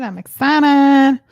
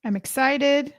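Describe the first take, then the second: First: "excited" stretched slow and loud; drawn-out excited cry. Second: Said in the usual way. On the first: Shown as a demonstration. Host to live viewers, stretching "excited" out loud and slow. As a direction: belt out "I'm excited" slowly and much louder.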